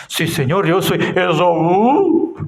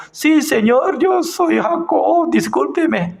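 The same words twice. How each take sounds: First: Lying Jacob. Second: Much higher, earnest humble answer; honest Jacob. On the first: Retold or imitated. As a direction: pass himself off as Esaú, calmly. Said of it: "¿cómo estaba diciendo?". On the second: Pretend. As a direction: own up plainly as Jacob, pitched high. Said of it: "entonces yo".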